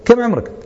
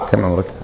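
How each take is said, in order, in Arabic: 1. يُسأل بنبرة عتاب وتوبيخ. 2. يُسأل كسؤال عادي ومحايد. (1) "قاعد أتكلم مع واحد طول سنة ولا كذا" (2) "نبي نسجل، نبي نعرف عمر حتى نسجل"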